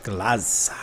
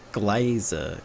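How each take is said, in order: First: Glaza drawled in a Texan accent. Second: Said in the usual way. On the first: Shown as a demonstration. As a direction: say Glaza the Texan way, long vowel. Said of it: "I just said that in, like, a Texan accent". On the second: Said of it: "How do you say that?".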